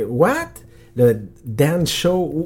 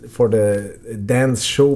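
First: Slow, puzzled question rising higher; mock-puzzled lady repeating the words; confused gate lady. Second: Said in the usual way. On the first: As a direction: echo the words back, baffled. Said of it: "la madame était que". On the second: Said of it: "on dit, ok".

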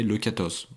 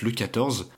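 First: Quatorze with lisped z, tongue between teeth; childish lisp on quatorze, z like th. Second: Said in the usual way. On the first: Shown as a demonstration. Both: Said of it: "J'avais un cheveu sur la langue".

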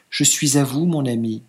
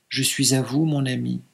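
First: A touch of troubled hesitation. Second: Softer, submissive and resigned. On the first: Bride answering her husband, mildly troubled. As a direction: say it unsure, a little shaken. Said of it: "troublée de nouveau". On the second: Bride repeating her consent, softly resigned. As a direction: give in quietly. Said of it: "mais soumise et résignée". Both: Acted.

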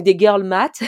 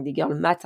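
First: Put-on girl math punched louder in an overdone English accent; hammed-up English accent. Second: Put-on tries an English accent on girl math, not quite convincing; English accent attempt. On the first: Vlogger retrying the English term, louder hammed-up English accent. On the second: Vlogger trying out the English term, tentative English accent. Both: Shown as a demonstration. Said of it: "j'essaie de, d'avoir un accent anglais, mais c'est pas crédible".

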